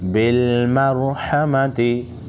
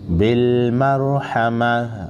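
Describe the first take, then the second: First: The word ends with a t sound and vowel. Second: The word ends with a soft h sound. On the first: The reading continues without stopping. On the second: The reader stops at this word.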